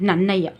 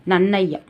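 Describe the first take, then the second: No difference in how they are said.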